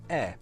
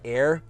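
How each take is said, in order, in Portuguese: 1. O som final do R é omitido. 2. O som final do R é claramente pronunciado. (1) "we are non-rhotic. So it means any R sound is very soft" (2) "you really pronounce that er in air"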